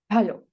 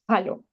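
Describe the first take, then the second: First: It starts with a light breathy h. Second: It starts with a harsh throaty j sound. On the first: The speaker calls it right. "esta H eh, se realiza así" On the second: The speaker calls it wrong. "para nada podemos pronunciar halo"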